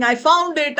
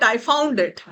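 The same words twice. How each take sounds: First: High joyful cry; excited. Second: Said in the usual way. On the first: Acted. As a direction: shout it with delight. Running home after finding diamond.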